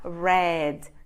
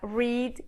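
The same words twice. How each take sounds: First: It is said with the changed past-form vowel. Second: It is said with the base-form vowel. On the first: It is the past form. "a pronúncia no passado muda para read" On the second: It is the base form, meaning to read. "forma básica read"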